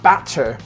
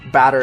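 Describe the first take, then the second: First: The middle consonant is a crisp T sound. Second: The middle consonant is a soft D-like tap. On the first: "not batter, which would be British English" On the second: "We actually say batter in American English with two D's"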